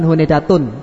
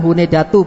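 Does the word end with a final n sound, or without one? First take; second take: final n; without n. First: The word ends with a final n sound. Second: The word ends in a vowel, with no final n. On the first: The speaker calls it wrong. "bukan hunedatun" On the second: The speaker calls it right. "Yang benar adalah hunedatu"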